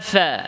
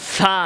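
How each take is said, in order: First: The fa is pronounced soft and relaxed. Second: The fa is pronounced hard and forceful. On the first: The speaker calls it right. "স্বাভাবিক" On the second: The speaker calls it wrong. "এভাবে শক্ত না"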